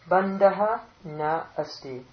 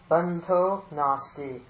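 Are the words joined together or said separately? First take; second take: separated; joined. First: The words are split into separate forms. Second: The words are run together into one form.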